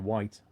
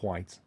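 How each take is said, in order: First: The word starts with a plain W sound. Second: An H sound is breathed before the W. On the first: This is the ordinary way to say it. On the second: This is how upper-class people say it.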